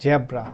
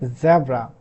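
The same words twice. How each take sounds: First: Zebra is said with a Bangladeshi English sound. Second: Zebra is said with standard English sounds. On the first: The speaker calls it wrong. "we Bangladeshi people pronounce it like zebra. No, that's wrong" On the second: The speaker calls it right. "so this is actually zebra"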